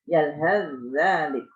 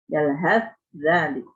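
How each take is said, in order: First: The th is merged into the following dh. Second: The th is clearly pronounced before the dh.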